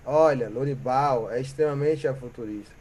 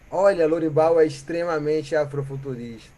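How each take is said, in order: Both takes have the same delivery.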